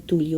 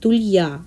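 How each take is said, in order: First: The stress is on the first syllable. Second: The stress is on the last syllable. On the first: The speaker calls it wrong. "а не тулья" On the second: The speaker calls it right. "надо говорить тулья, ударение на последнюю букву"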